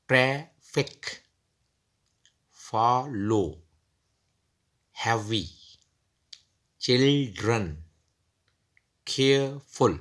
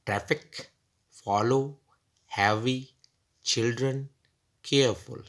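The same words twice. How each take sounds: First: ट्रैफिक, फॉलो, हैवी, चिल्ड्रन, केयरफुल split into syllables, slow and careful. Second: Said in the usual way. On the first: Shown as a demonstration. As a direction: break each word into its syllables. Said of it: "अगर हम joining syllables करते हैं". (शब्दों को धीरे-धीरे syllable में तोड़कर बोलना) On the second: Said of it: "दो दो सिलेबल जोड़कर नए लफ्ज़ अब बन चुके हैं".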